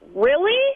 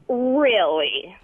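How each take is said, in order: First: It is said in an upset tone. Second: It is said in a condescending tone.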